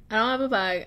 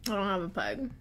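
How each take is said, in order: First: Said in the usual way. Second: Softer, confessional "I don't have a pug."; sheepish admission. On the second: Shown as a demonstration. Admitting to viewers she owns no pug, softer and sheepish.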